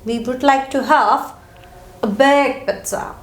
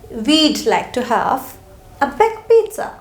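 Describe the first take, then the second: First: We would is said as two full words. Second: We would is shortened into one syllable.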